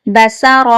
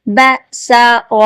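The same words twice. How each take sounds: First: Said in the usual way. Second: بسر drawn out syllable by syllable; slow syllables. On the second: Shown as a demonstration. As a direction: spell out بسر very slowly. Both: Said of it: "ابھی ہم practice کی طرف آئیں گے".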